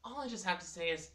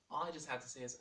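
First: Loud emphatic. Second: Said in the usual way. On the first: Acted. Emphatic intro before teasing.

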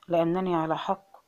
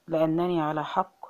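The two takes are said the same way.

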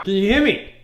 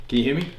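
First: High, loud call; shouted hearing check. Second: Said in the usual way. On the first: Shown as a demonstration. Coach checking if the player hears, shouting. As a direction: holler to get through blocked ears.

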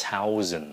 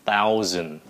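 First: THOUSAND with a puffed Vietnamese th, T plus air; wrong th sound. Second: THOUSAND with unaspirated th at the front; correct th sound. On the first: Teacher showing what we don't say, mispronounced THOUSAND. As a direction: say THOUSAND as aspirated T-HOUSAND. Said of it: "mình không có nói là". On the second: Teacher drawing learners' attention, correctly pronounced THOUSAND. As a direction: model THOUSAND, no puff of air. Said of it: "để ý cái chữ thousand". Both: Shown as a demonstration.

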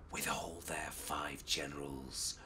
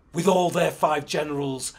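First: Low, hushed secret whisper. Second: Loud, forceful growl. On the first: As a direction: whisper it to a fellow spy. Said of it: "Ras Alula whispered". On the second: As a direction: growl it out like a king. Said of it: "Menelik growled". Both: Acted.

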